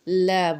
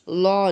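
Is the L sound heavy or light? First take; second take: light; heavy. First: The L is light, with a thin a. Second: The L is heavy, with a full, dark vowel. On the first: The speaker calls it right. "अब इसको हम ला बोलेंगे" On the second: The speaker calls it wrong. "लॉ नहीं बोलेंगे"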